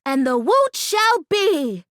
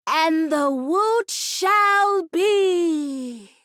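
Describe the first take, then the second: First: Slow, big-breath declaration of "woot"; measured ceremonial chant; solemn incantation. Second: Very slow, drawn-out chanted "woot shall be"; sung, stretch every word like a ritual; sung, solemn drawn-out incantation; sung, intoned spell. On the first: Shown as a demonstration. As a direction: proclaim it like a spell. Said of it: "we say with a big breath". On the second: Acted. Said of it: "ready for the words? Here we go".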